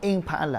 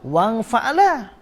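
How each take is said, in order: First: The opening vowel is clearly pronounced. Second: The opening vowel is dropped and joined on. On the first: The word is read from its start. "Kalau kita mula di hamzah tu" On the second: The word is read on from a previous word. "Kalau kita gi lalu"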